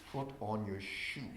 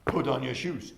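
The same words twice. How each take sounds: First: Slow, low, heavy instruction; mock calm order. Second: Louder direct order; normal demand. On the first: Staff member claiming calm to a client, slow low order. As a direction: drag out a low, slow command. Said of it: "I, I, like this". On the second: Shown as a demonstration. Staff placing a demand on someone, louder firm order. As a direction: give a firm, projected instruction. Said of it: "you can do like this, that's what we normally do".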